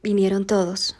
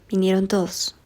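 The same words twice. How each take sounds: First: All vowels are pronounced fully and clearly. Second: Unstressed vowels are weakened or dropped, highland-style.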